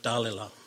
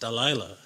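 First: The name has an older, metrical pronunciation. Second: The name has its familiar modern pronunciation. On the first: This is the version the poet's meter requires. "Milton actually rhymed it Dalilah" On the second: This is the version audiences expect to hear. "as we would all expect to hear it"

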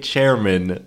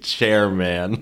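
First: It is said as one ordinary word. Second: It is said as two separate words. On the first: It is the ordinary word for a leader. "the way they don't say chairman" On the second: It is a name meaning a man in a chair. "they say chairman. ... They should have put a space between it"

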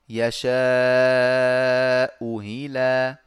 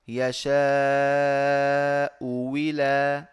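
First: The second hamza is softened toward a y sound. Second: The second hamza becomes a w sound with i. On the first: "أن تسهل الهمزة بينها وبين الياء" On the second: "كان يبدل الهمزة الثانية واوا مكسورة هكذا"

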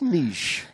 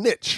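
First: The word is given its posh, refined pronunciation. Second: The word is given its plain, everyday pronunciation. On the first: The speaker is in snobbish company. "If you're with a bunch of aristocrats" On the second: The speaker is among casual friends. "If you're with your buddies at Sharky's"

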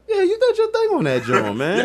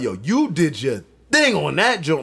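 First: It sounds sarcastic, with a higher voice. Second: It sounds sincere, with a lower voice.

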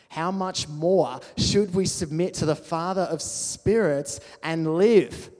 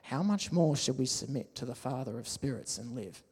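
First: It is read with strong exclamatory force. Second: It is read plainly, without exclamatory force.

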